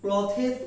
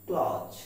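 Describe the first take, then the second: First: The word is said in two syllables. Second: The word is said in one syllable. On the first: The speaker calls it wrong. "আমরা এটাকে ক্লথেস উচ্চারণ করি অভ্যস্ত" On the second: The speaker calls it right. "কিন্তু উচ্চারণটি আসলে হবে ক্লজ"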